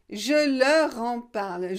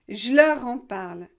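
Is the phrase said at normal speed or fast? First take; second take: normal; fast. First: The phrase is said at a normal, careful speed. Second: The phrase is said quickly, with sounds run together.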